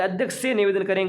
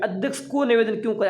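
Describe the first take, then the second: First: Firm correction leaning on से; stress on correct से. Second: Higher-pitched challenge leaning on को; questioning the wrong को. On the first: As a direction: offer से as the right word, stressing it. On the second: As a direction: stress को as the mistaken word, querying it. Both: Shown as a demonstration. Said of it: "यहाँ पर तो से आना चाहिए".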